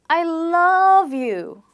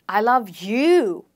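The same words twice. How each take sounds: First: The word 'you' is not stressed. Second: The word 'you' is stressed.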